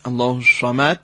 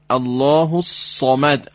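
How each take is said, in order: First: الله الصمد with a hissing, whistled ص; wrong whistled sad. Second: الله الصمد said slowly with a full emphatic ص; slow demo. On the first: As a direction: demo the faulty whistle on الصمد. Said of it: "غلط". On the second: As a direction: teach الصمد deliberately. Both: Shown as a demonstration.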